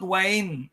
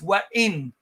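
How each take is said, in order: First: It runs together with no glottal stop. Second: It has a glottal stop before the i. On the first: The speaker calls it wrong. "do not read it as wain" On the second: The speaker calls it right. "it's wa'in"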